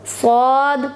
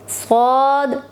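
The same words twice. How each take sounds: First: स्वाद full-mouthed with a slight hiss; heavy swad. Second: स्वाद said full-mouthed, thick; heavy swad. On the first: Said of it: "स्वाद में भी थोड़ी सी सीटी की आवाज़ पैदा होगी". (स्वाद मुंह भर के, हल्की सीटी के साथ) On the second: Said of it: "मुंह भर के". (स्वाद मोटा, मुंह भर के) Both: Shown as a demonstration.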